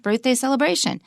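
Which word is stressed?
celebration. The stress falls on the word celebration. The speaker calls it wrong. "not birthday celebration"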